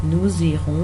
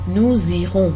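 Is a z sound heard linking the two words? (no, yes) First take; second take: yes; yes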